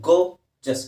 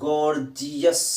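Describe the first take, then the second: First: It is said in two syllables, go-jus. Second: It is said in three syllables, gor-ji-us. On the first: The speaker calls it right. "ಗೋ ಇದೆ, ಜಸ್ ಇದೆ" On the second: The speaker calls it wrong. "ಗೋರ್ಜಿಯಸ್ ಅಂತ ಹೇಳೋ ಅವಶ್ಯಕತೆ ಇಲ್ಲ"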